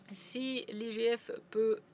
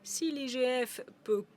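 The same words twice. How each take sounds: The two takes are said the same way.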